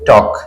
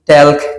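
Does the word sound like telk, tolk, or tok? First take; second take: tok; telk. First: It has an O vowel and no L. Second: It has an E vowel and an L. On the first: The speaker calls it right. "এল এর উচ্চারণ হবে না, এটা হবে টক" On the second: The speaker calls it wrong. "কেউ বলেন টেলক"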